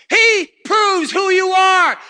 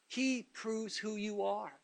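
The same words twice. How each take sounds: First: Higher, louder and slow, ringing out; excited shout. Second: Softer, slow and deliberate; quiet slow statement. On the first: Preacher erupts at the congregation, excited shout. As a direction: proclaim it at full force. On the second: Preacher telling the church what God does, hushed and slow. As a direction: let it sink in, hushed. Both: Real, not acted. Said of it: "You excuse me if I get excited".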